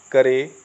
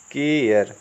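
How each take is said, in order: First: CARE misread as करे, kuh-ray in two syllables; wrong pronunciation. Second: CARE as केयर, kay-yer with a long first vowel; correct pronunciation. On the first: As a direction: say करे with short a and final ay. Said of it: "ये सब होते हैं गलत pronunciation". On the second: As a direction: say केयर with ay gliding into a final r. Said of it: "इसका सही उच्चारण जो है". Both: Shown as a demonstration.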